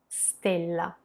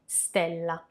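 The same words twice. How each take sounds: First: The E vowel is pronounced closed. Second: The E vowel is pronounced open. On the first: This is the standard Italian pronunciation. The speaker calls it right. "with a closed E" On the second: This is how people say it in the Milan region. The speaker calls it wrong. "That E is pronounced like an open E"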